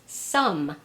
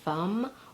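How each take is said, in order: First: The word begins with an S sound. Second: The word begins with an F sound. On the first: "or sometimes as an S" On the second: "gets mispronounced as an F"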